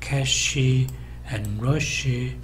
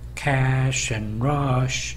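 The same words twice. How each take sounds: First: Extra vowels are added, making five syllables. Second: No vowels are added, making three syllables. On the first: The speaker calls it wrong. "한 다섯 개의 봉우리가 있는 것이죠" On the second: The speaker calls it right. "영어식으로 하게 된다면 cash and rush 이렇게 해야 되겠죠"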